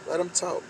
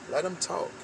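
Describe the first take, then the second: No difference in how they are said.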